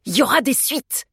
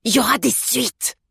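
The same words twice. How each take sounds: First: Raised-pitch threat; mildly menacing, higher voice. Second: Higher-pitched angry threat; cross postman with raised voice; furious. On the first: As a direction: warn them there will be trouble. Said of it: "déclara l'homme sur un ton menaçant". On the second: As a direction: repeat the threat, incensed. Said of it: "répéta le facteur furieux". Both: A narrator's reading.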